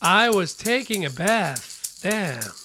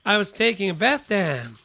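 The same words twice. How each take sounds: First: The sentence is spoken at a slow pace. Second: The sentence is spoken at a fast pace.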